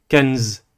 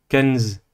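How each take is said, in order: Both takes have the same delivery.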